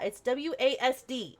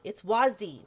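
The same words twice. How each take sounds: First: "W A S D" spelled out letter by letter. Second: "wasd" said as one word, rhyming with "wasp". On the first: Mocking the game, she spells out the keys letter by letter. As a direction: say "W A S D" as four separate letters. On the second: Mocking the game, she says the keys as one word. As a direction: blend "wasd" into a single word. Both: Shown as a demonstration. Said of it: "why do they say it like that".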